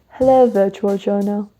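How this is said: It is read in a put-on British accent.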